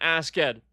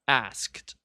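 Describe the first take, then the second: First: The word is said as two syllables. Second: The word is said as one syllable. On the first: "Use Old English then" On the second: "it's askta"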